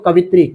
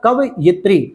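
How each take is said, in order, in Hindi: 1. शब्द ka-vi-tri की तरह बोला जाता है, तीन अक्षर। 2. शब्द ka-va-yi-tri की तरह बोला जाता है, चार अक्षर। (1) "हर जगह देखो कवित्री" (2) "सही हो जाएगा इसका कवयित्री"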